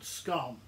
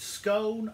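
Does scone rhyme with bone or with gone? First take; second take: bone; gone. First: The vowel is long, rhyming with bone. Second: The vowel is short, rhyming with gone. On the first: The speaker calls it wrong. "not scone" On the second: The speaker calls it right. "It's scone, not scone"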